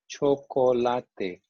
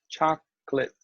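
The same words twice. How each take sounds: First: It has Spanish sounds with every vowel clearly pronounced. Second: It has English sounds with weak, reduced vowels. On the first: "Spanish, let's say the vowels. O, O, A, E" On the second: "So in English, you don't even hear these vowels"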